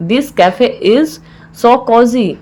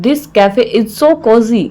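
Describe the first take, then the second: First: Measured, with a clear mid-phrase pause; broken into parts. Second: Said in the usual way. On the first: Shown as a demonstration. Teacher repeats the phrase for learners, in separated parts.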